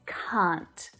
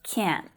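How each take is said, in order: First: It is said with a long non-American vowel. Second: It is said with an American vowel. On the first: "But in my accent, it's can't" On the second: "you'll hear it a little differently in some American accents, more like can't"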